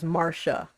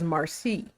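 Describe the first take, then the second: First: The middle consonant is an 'sh' sound. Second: The middle consonant is an 's' sound. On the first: This is how the name's owner says it. "correct uh, pronunciation is Marsha" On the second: This is how the name is said in the Caribbean. "we in the Caribbean say it as Marci"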